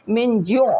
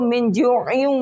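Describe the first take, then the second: First: The word ends clipped, without the ending. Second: The word ends with a full 'in' ending. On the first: The reciter stops at this point. "लेकिन जब वक्फ करेंगे मिन जो हो जाएगा ये" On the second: The reciter continues without stopping. "अगर इस आयत यहाँ वक्फ नहीं करेंगे तो मिन जुइन"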